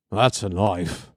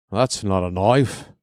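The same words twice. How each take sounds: First: Lower, mock Australian accent with "That's" punched and a falling end; "That's a knife" in a crap Crocodile Dundee Australian accent; clumsy Australian accent, settled and falling; bad Australian accent. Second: Lower, mock Australian accent with a rise on "knife"; "That's not a knife" in a crap Crocodile Dundee Australian accent; clumsy Australian accent, "knife" lifted like a question; bad Australian accent. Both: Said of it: "My Australian accent is crap".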